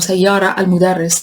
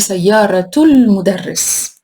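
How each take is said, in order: First: The first word ends without a t sound. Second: The first word ends with a clear t sound. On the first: The speaker calls it wrong. "I cannot say ... This is wrong" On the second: The speaker calls it right. "It has to be"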